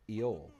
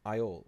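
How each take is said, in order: First: Iole said "EE-ole", with an ee first; alternative pronunciation. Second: Iole said "EYE-ole", with a long I first; first pronunciation. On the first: Player offers another reading, Iole as "EE-ole". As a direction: say Iole starting like "ee". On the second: Unsure player tries the name, Iole as "EYE-ole". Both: Shown as a demonstration. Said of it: "however that is pronounced".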